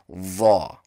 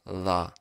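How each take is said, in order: First: It is said with rounded lips, sounding hollow. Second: It is said with spread lips, sounding flat. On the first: The speaker calls it right. "the real pronunciation is" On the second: The speaker calls it wrong. "If I don't bring my lips together in a circle or puff up my cheeks, it'll sound like"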